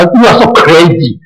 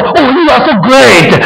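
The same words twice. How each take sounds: First: A plain, dismissive jab; mock scornful. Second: Higher, slow gushing praise; mock admiring. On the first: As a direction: call them crazy with a shrug. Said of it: "不会的，他". (不屑的嘲讽语气) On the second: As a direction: gush over them as if impressed. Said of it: "他们不会说". (假装夸赞的语气)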